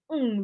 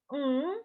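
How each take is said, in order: First: "Hmm" as an agreeing hum meaning yes. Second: "Hmm" pitched high as a negating hum meaning no. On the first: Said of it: "intonasi, ya, penekanan di situ". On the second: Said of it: "sebagai iye". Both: Shown as a demonstration.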